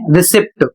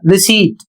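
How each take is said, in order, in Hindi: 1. t से पहले p की ध्वनि सुनाई देती है। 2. t से पहले p की ध्वनि सुनाई नहीं देती। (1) "इसे बहुत से लोग पढ़ते हैं रिसिप्ट, जबकि रिसिप्ट नहीं पढ़ा जाता है, गलत है।" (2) "इसे पढ़ा जाएगा रिसीट"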